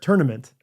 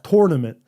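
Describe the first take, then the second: First: The first syllable sounds like 'turn'. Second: The first syllable sounds like 'tor'. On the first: "And I say turn, T U R N" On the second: "you say T O R R"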